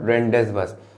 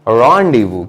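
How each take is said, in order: First: It is read as spelled, sounding the z and s. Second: The z and s are silent: rondivoo. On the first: The speaker calls it wrong. "This is not called रेंडेस वस" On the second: The speaker calls it right. "इसका सही pronunciation होता है रॉन्डिवू"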